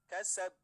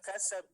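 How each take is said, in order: First: The final b bounces out clearly and strongly. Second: The final b is soft and barely heard. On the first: The speaker calls it right. "tidak pelan tapi kasab. Ya, jelas" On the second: The speaker calls it wrong. "Jadi tidak kasab"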